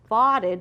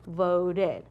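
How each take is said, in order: First: The O is a short vowel. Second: The O is a long vowel. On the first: The speaker calls it wrong. "if you read it with a short O" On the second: The speaker calls it right. "Change it to the long O"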